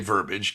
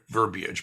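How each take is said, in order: First: No "ee" sound is heard after the b. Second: An "ee" sound is heard after the b. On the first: The speaker calls it wrong. "they say verbiage because they mispronounce it" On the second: The speaker calls it right. "Verbiage is the word, ... it's had an I in it"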